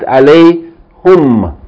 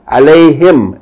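First: The pronoun is said with a 'u' vowel. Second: The pronoun is said with an 'i' vowel. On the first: The speaker calls it wrong. "not alayhum" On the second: The speaker calls it right.

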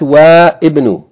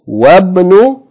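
First: The i vowel of ibn is pronounced. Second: The i vowel of ibn is dropped. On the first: The speaker calls it wrong. "not وابن" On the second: The speaker calls it right. "If anything is before it, then you don't pronounce its vowel"

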